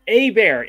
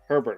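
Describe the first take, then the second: First: It starts without an H, sounding like 'eh-bear'. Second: It starts with an H, sounding like 'her-bert'. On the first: The speaker calls it right. "here's the name Herbert pronounced as Eber" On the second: The speaker calls it wrong. "I always say Herbert"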